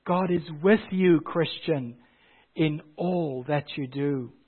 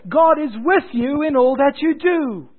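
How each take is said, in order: First: Tender quiet refrain after the preaching; hushed reassurance. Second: Refrain cried out high and loud; ringing sermon refrain, pitched high; preaching at full force. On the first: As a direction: bring it down to a gentle promise. Refrain dropped to hushed assurance. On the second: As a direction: proclaim it from the pulpit. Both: Acted.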